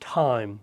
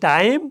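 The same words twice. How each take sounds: First: The t sound has a strong puff of air. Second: The t sound is plain, without a puff of air. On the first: The speaker calls it right. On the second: The speaker calls it wrong.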